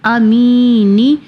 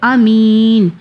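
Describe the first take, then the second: First: The word ends with a final vowel. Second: The word ends on a consonant. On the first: The recitation continues without stopping. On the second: The recitation stops here.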